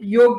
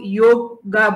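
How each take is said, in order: First: The word ends on the 'g' consonant sound. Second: The word ends with an 'a' vowel sound. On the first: The speaker calls it right. "हमें योग बोलना चाहिए" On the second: The speaker calls it wrong. "काफ़ी लोग योगा बोलते हैं"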